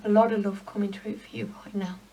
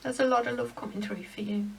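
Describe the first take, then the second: First: Breathy whispered words, fighting tears; real emotion sinking into a whisper; choked whisper. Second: Quiet, emotion catching in the throat; softer, voice thick with real feeling; choked up. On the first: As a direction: whisper it, too moved to voice it. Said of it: "Sorry, I got choked up then". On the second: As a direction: hold back tears as the words come. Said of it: "I got choked up then". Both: Real, not acted.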